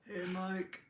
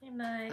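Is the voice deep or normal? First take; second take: deep; normal. First: It is said in a put-on deep voice. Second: It is said in her normal voice.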